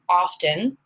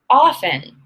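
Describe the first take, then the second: First: The T sound is clearly pronounced. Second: The T sound is left silent. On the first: "you're right. I usually say often" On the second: "it is common to hear often"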